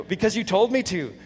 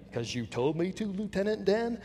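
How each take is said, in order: First: Said in the usual way. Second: Simple-minded reply. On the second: Retold or imitated. Innocent reply to boss.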